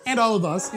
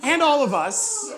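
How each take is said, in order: First: Said in the usual way. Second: Said through a laugh, pitched up; laughing it out mid-sentence. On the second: Real, not acted. Laughing aside to congregation.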